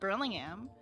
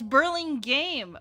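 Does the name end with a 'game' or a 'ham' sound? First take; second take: ham; game. First: The name ends with a 'ham' sound. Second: The name ends with a 'game' sound. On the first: The speaker calls it wrong. "I just call it Burlingham" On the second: The speaker calls it right. "It's Burlingame"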